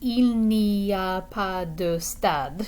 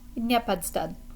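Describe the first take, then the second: First: Each word is said separately and slowly. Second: It is quick, with 'pas de' merged into 'pad'. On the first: It sounds mechanical, like a textbook. The speaker calls it wrong. "They don't say il n'y a pas de stade. It would sound really mechanical" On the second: It is how people actually speak quickly. The speaker calls it right. "if you wanted to say it really quickly"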